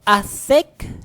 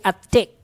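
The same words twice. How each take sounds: First: The word begins with a breathy th sound. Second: The word begins with a plain t sound. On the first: The speaker calls it right. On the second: The speaker calls it wrong.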